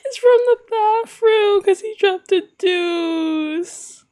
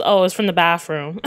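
First: High, drawn-out squeal of hilarity; laughing wail. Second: Said in the usual way. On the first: Real, not acted. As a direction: repeat it slowly, helpless with laughter. Repeats it, breaking into laughter.

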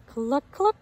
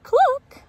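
First: A hint of a clucking hen; hen's cluck. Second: A squawked, much higher cluck; loud high cluck. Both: A narrator's reading. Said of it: "says Mama Hen".

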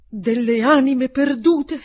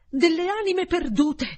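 First: Stammering slowly and loudly in horror; balbettando, lento. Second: Repeated higher, ending on a rise; balbettando, acuto. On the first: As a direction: spell out the lost souls in a slow, stunned, louder stammer. (balbettio lento e più forte, atterrito) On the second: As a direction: echo the words higher in stunned disbelief. (ripetuto più acuto, con tono ascendente incredulo) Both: A narrator's reading. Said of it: "balbettò".

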